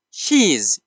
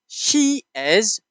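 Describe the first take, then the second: First: "she's" as one falling syllable; contraction. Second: SHE and IS as two separate words; full form. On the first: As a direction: join it into a single syllable, "she's". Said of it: "You can pronounce it in the contraction form". (شکل اختصاری، یک هجا: she's) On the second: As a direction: say "She is" in full, higher pitched. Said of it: "pronounce it in the contraction form". (شکل کامل، دو کلمهٔ جدا: She is) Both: Shown as a demonstration.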